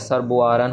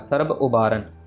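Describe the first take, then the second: First: The two words are run together. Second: The two words are said separately. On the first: The speaker calls it wrong. "ये वाला बब्बा सर्ब का और ये वाला उबारन का बब्बा जुड़ जाता है" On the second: The speaker calls it right. "ये सही तरीका है पढ़ने का, मतलब सर्ब अलग से, उबारन अलग से"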